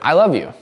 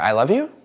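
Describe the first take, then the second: First: It is said as a plain statement. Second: The pitch rises at the end like a question.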